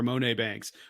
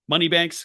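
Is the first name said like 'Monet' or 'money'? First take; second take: Monet; money. First: The first name is said like 'Monet'. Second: The first name is said like 'money'.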